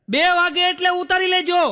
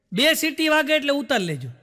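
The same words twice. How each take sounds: First: Higher and louder, એટલે pushed hard; stress on એટલે. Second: Said in the usual way. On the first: Retold or imitated. Husband's garbled memory of wife's order, stressed. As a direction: misheard instruction with વાગે stretched and એટલે punched. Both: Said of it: "એની ઘરવાળી કે".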